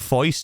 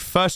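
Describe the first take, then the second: First: The word is said in an old gangster accent. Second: The word is said in the speaker's normal accent.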